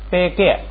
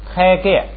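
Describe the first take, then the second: First: The first syllable starts with an unaspirated b. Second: The first syllable starts with an aspirated p. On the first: The speaker calls it wrong. "不对，不是掰，" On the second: The speaker calls it right. "是拍"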